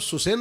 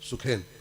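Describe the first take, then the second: First: The middle consonant is an s sound. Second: The middle consonant is a kh sound. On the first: This is how the name is commonly said now. The speaker calls it wrong. "वास्तव में उसका नाम सुसेन नहीं है" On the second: This is the older, traditional form of the name. The speaker calls it right. "सुखेन है"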